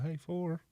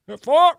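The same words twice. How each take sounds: First: Soft, half-hearted warning call; understated golf call. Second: High, full-volume golf holler; yelled golf warning. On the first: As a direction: say it too quietly to warn anyone. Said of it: "You can't just be like". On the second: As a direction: yell it like a ball is flying at someone. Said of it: "you have to yell four". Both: Shown as a demonstration.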